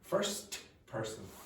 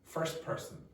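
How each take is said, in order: First: The t sound in 'first' is pronounced. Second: The t sound in 'first' is dropped. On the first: "instead of first person" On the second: "you'll forget about the T"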